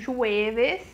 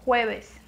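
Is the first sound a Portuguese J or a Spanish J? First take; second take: Portuguese J; Spanish J. First: It starts with a soft Portuguese J sound. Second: It starts with a throaty Spanish J sound. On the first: The speaker calls it wrong. "se escreve como jueves" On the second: The speaker calls it right. "não tem o som do J e não tem o som do V"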